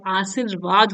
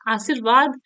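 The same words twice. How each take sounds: First: आशीर्वाद with a long second vowel ee; correct form. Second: आशीर्वाद with a short second vowel i; wrong form. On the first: Teacher correcting vowel length, correct long ee. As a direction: stretch the "shee" in आशीर्वाद. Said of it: "आशीर्वाद होता है". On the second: Teacher showing a vowel-length error, wrong short i. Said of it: "आशीर्वाद नहीं होता है". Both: Shown as a demonstration.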